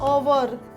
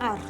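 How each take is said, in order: First: The word is said as two syllables, ow-er. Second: The word is said as one syllable, ar. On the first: The speaker calls it wrong. "આપણે જેને અવર બોલીએ છીએ ને" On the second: The speaker calls it right. "Actually આને અવર નથી બોલાતું, આને બોલાય છે આર"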